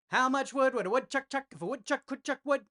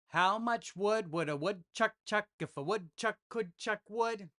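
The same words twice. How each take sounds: First: It is said at a fast pace. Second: It is said at a slow pace.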